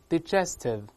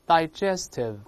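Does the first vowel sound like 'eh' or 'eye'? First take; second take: eh; eye. First: The first vowel sounds like 'eh'. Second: The first vowel sounds like 'eye'.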